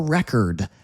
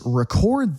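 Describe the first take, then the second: First: The stress is on the first syllable. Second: The stress is on the second syllable. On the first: It is the noun. "Look at the noun of record" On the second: It is the verb. "Now listen to the verb form"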